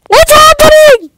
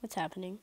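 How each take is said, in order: First: Very high, loud shout; shocked shout. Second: Soft, low puzzled mumble; quiet mumble. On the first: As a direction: shriek it out in shock. Sudden shock in game. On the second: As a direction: mutter it, confused. Confused in game. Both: Real, not acted.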